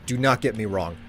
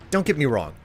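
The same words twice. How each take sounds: First: "not" split off and leaned on in "Do not get me wrong"; stress on not. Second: Said in the usual way. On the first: Real, not acted. Insisting to chat he doesn't mind the task, stressing not. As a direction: spell out "Do not" and hit "not".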